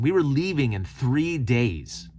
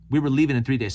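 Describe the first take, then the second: First: Slow, each word of "We were leaving in three days" laid down heavily; weighty, deliberate stress; emphatic repeat. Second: Said in the usual way. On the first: Real, not acted. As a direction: spell out the urgency slowly.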